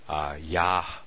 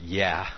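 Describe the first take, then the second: First: The vowel sounds like 'ah'. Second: The vowel sounds like 'eh'. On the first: The speaker calls it right. "more pronounced as a Y-A-H, as in Yah" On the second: The speaker calls it wrong. "it's not Yah, as in Y-E-H"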